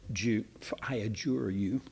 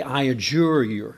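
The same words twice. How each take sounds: First: Adjure said again softly with a rising tune; preacher softly tries the old word adjure again, musing; softer musing repeat. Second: Adjure read out firmly and louder, stress on adjure; preacher reading the old King James wording firmly, adjure stressed; firm archaic quote. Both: Shown as a demonstration. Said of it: "older, older versions ... say".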